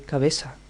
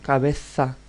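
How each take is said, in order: First: The z is said like an s sound. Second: The z is said like a th sound. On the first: This is how people in Seville say it. "In Sevilla, Seville, they say cabeza" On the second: This is the standard form to learn. "you must learn cabeza"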